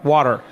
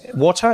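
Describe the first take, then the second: First: It is said in an American accent. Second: It is said in a British accent.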